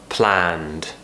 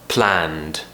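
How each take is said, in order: The two takes are said the same way.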